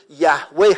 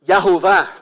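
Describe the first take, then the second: First: یهوه said as yah-weh, w sound and final h; Yahweh pronunciation. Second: یهوه said as ya-ho-vah, vowel o in the middle; Yahovah pronunciation. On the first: Preacher giving the other reading of the name: یهوه as yah-weh. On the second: Preacher showing the congregation one way to say the name: یهوه as ya-ho-vah. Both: Shown as a demonstration.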